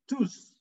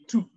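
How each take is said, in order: First: The final S sound is pronounced. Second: The final S sound is silent. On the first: The word ends the sentence. "When it comes at the end of the sentence, you say nous tous" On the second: The word comes before other words. "The S will be silent"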